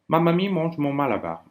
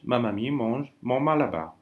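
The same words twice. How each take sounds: First: It is said as fast as possible. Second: It is said at a normal pace. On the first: "le plus vite possible que vous pouvez ... Pareil à moi" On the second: "Je répète"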